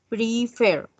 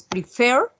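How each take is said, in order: First: Said in the usual way. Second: Prefer with the last syllable fer louder and rising; stress on the last syllable. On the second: Shown as a demonstration. (acento marcado en fer de prefer) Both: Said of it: "tiene el acento".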